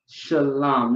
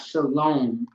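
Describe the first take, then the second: First: The second vowel is not an O sound. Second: The second vowel is an O sound. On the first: The speaker calls it right. "not shalom with an O" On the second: The speaker calls it wrong. "with an O"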